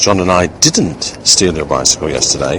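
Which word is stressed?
didn't. The word didn't is stressed. The act is completely denied. "a plain emphasis on the word that demonstrates the meaning of the sentence, which is a complete denial of the act"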